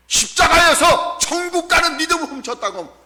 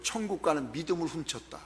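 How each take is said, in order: First: High, shouted preaching repeat; forceful proclamation. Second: Low, soft quoting of a theologian; hushed quotation. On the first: Same quote repeated at full force. (높은 소리로 힘껏 외치듯) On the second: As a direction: quote it quietly, letting it sink in. Theologian's quote, first said quietly. (낮고 조용하게 인용하듯) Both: Retold or imitated.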